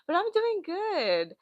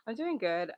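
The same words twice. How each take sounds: First: High, slow sing-song "doing good". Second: Said in the usual way. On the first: Real, not acted. Greeting chat in a high slow sing-song.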